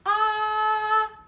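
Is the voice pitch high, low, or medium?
high. The vowel is held at a high pitch. "Now we're going to do a high pitch"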